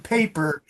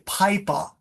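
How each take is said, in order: First: The vowel is said with a plain, non-Australian accent. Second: The vowel is said with an Australian accent. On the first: "Doctor Duke does not have a strong Australian accent" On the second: "in Melbourne, where she is, they will say pipa"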